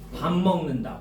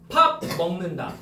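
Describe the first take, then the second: First: The first word ends with an m sound. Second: The first word ends with a clear p sound. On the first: The speaker calls it right. "이래야 된다는 거야" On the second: The speaker calls it wrong. "이러면 안 된다고"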